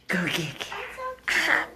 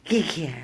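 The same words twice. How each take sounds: First: Much higher, slow sing-song "Go get Carol"; high coaxing call. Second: Said in the usual way. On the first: Real, not acted. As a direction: urge the dog in a high drawn-out voice. Urging dog, high voice.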